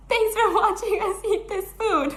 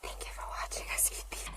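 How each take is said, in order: First: Said in the usual way. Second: Soft voiceless ASMR whisper, quick; breathy close-mic whisper sign-off. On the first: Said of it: "I said". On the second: Retold or imitated. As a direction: whisper it like closing an ASMR video. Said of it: "'cause it was a whispering one".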